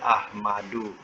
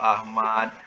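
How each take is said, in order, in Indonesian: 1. Nama itu berakhir dengan vokal tambahan. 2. Nama itu berhenti pada konsonan terakhir. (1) "kita tak nak wakafkan, kita baca Ahmadu" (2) "sebenarnya kita boleh wakaf-wakafkan je"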